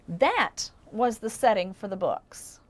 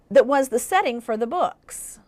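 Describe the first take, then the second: First: It sounds finished, like a complete sentence. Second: It sounds unfinished, like a dependent clause.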